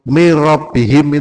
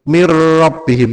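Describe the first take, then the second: First: The 'r' sound is single and quick. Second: The 'r' sound is doubled and held. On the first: The speaker calls it wrong. "seolah-olah hanya satu rok" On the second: The speaker calls it right. "Kalau tajid itu berarti double"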